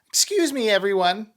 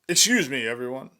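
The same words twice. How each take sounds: First: It is said in a higher, female-sounding voice. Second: It is said in a deep, male-sounding voice. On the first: The speaker calls it right. "it's going to be a petite young woman" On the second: The speaker calls it wrong. "I said it in a dude's voice"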